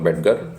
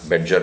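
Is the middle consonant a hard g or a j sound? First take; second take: hard g; j sound. First: The middle consonant is a hard g sound. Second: The middle consonant is a soft j sound. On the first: "बेडगर भी इनका pronounce उच्चारण करते हैं कुछ लोग" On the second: "Frank बेडजर भी इन्हें बुलाया जाता है"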